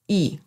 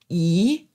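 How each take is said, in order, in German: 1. Die Silbe wird mit dem neutralen Ton gesprochen. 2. Die Silbe wird mit dem zweiten Ton gesprochen. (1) "der neutrale Ton" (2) "der zweite Ton"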